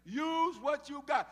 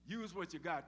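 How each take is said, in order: First: Loud, high, very slow stress on every word; emphatic command. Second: Said in the usual way. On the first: Shown as a demonstration. Preacher drilling the lesson into the congregation, slow loud emphasis. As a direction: stretch out Use what you got and punch each word. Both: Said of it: "Tell your neighbor".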